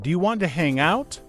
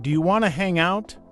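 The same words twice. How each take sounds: First: 'Want to' is said in full. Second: 'Want to' is reduced to 'wanna'. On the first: "instead of saying" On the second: "It's faster and sounds more natural"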